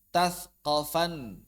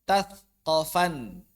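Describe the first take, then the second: No difference in how they are said.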